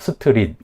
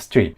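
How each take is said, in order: First: Vowels are added, making three syllables. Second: Consonants stay bare, making one syllable. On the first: The speaker calls it wrong. "스트릿 이렇게 삼음절로" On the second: The speaker calls it right. "이 네 음절이 아니라 그냥 스트리트, 그냥 이름절 단어예요"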